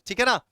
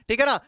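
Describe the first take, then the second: No difference in how they are said.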